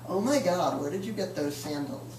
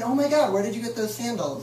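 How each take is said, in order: First: It sounds mean and mocking. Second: It sounds sincerely curious and admiring.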